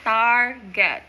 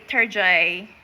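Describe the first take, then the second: First: It is said in a plain American accent. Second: It is said in a mock French accent.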